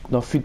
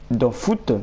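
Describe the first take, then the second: First: "foot" corrected to French fut, u vowel. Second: "foot" said like English foot, oo vowel. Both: Real, not acted.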